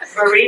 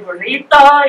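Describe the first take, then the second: First: It is said with an English accent. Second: It is said with a Spanish accent. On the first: The speaker calls it wrong. "correctly instead of like burrito" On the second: The speaker calls it right. "I can say burrito"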